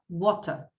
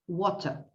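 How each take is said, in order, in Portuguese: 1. O T do meio é um T claro e nítido. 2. O T do meio é um T claro e nítido.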